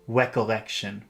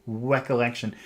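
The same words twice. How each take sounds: Both takes have the same delivery.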